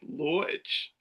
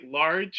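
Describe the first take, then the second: First: It is said in a New York accent. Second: It is said in the speaker's plain accent.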